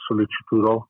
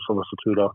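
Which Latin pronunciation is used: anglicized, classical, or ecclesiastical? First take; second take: ecclesiastical; anglicized. First: It is said in ecclesiastical Latin pronunciation. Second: It is said in anglicized Latin pronunciation. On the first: "in ecclesiastical, I believe" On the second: "in anglicized Latin"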